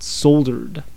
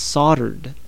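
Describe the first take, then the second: First: The L sound is clearly pronounced. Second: The L sound is left out. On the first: The speaker calls it wrong. "and not soldered" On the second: The speaker calls it right. "it's pronounced soldered"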